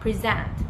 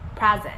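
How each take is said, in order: First: The stress is on the second syllable. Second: The stress is on the first syllable. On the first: It means to give something to someone. "when the stress is on the back" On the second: It is a gift. "when the stress is on the front"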